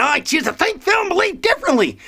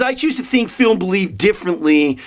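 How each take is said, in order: First: High, silly declaration; mock defiance. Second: Said in the usual way. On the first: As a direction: proclaim it in a comic high-pitched voice. Repeats statement in silly high voice.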